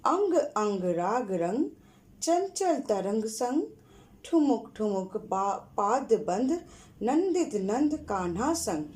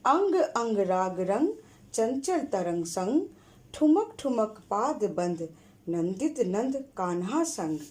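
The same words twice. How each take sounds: First: Slow, rhythmic rhyme reading; slower poem recital. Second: Rhythmic chanted poem reading; poem recital. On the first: Teacher repeating the rhyme slowly for the class. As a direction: chant it again slowly for pupils to follow. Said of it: "फिर से एक बार पढ़ रही हूँ, सुनो।". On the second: Teacher reciting a rhyme for the class. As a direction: recite it with a sing-song beat. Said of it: "वो मैं पढ़ रही हूँ।". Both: Shown as a demonstration.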